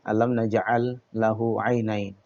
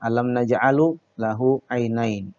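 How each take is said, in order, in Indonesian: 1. Kata kerja ini diakhiri tanpa vokal akhir. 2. Kata kerja ini diakhiri dengan vokal 'u' di akhir. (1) "kita dapatkan bacaan yang tepat" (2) "Tidak boleh dibaca ... Salah ya"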